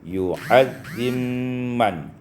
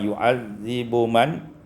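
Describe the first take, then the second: First: The b merges into a doubled m sound. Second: The b sound is pronounced before the m.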